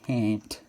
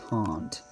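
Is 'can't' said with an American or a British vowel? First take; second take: American; British. First: The vowel is the short American 'a'. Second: The vowel is the long British 'ah'. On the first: "instead of saying can't" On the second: "the Australian accent generally uses British pronunciation"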